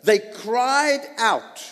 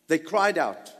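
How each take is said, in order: First: "cried" stressed, raised and slowed; emphatic. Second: Said in the usual way. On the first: Shown as a demonstration. Preacher stressing that the people "cried" out, slow and emphatic. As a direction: lean hard on "cried", drawn out. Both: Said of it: "Notice what it does say".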